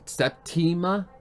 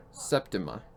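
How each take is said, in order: First: "Septima" as sep-TEE-muh, long ee in the middle, slow and higher; questioning "Septima" with a clear ee: sep-TEE-muh; trying the British way. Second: "Septima" as SEP-tuh-muh, stress on the first syllable, weak middle vowel; plain American "Septima": SEP-tuh-muh; American pronunciation. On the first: Streamer trying the friend's British pronunciation, "Septima" as sep-TEE-muh. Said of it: "But I think Septima seems more correct". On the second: Streamer showing a British friend his American "Septima": SEP-tuh-muh. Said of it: "I would pronounce it Septima".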